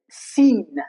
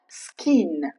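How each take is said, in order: First: The C is silent, starting with an S sound. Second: The C is sounded as K after the S. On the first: The speaker calls it right. "The C remains silent when C comes after the letter S" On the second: The speaker calls it wrong. "not skin"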